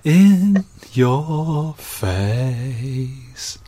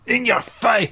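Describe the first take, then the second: First: It is said in a soft, gentle tone. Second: It is said in a harsh, aggressive tone. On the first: "That's nicer" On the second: "It's a bit aggressive, isn't it?"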